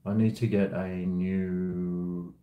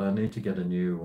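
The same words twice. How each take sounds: First: Slow, drawn-out phrasing; slow, deliberate restart. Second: Fast, tossed-off phrasing; quick throwaway mumble; rushed. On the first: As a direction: stretch each word out. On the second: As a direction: hurry through it. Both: Real, not acted.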